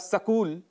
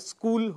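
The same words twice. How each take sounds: First: An extra vowel sound is added to the word. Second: The word is said with no extra vowel. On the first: The speaker calls it wrong. "ऐसा कह देते हैं, जो कि गलत है" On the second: The speaker calls it right. "शुद्ध उच्चारण"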